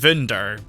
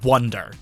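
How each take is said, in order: First: The word is said with German pronunciation. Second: The word is said with English pronunciation. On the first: This is how the original German name sounds. "it would be pronounced Wunder" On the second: This is the English version of the name. "that's just the English version of the name"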